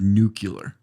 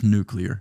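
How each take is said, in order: First: An extra vowel sound comes before the l. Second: The c sound runs straight into the l. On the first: The speaker calls it wrong. "You said nuclear. That's just not even a word" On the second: The speaker calls it right. "It's n- just nuclear"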